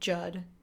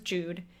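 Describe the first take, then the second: First: The vowel is a short 'uh' sound. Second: The vowel is a long 'oo' sound. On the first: The speaker calls it wrong. "the teacher pronounced it Judd" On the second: The speaker calls it right. "U's are usually pronounced oo"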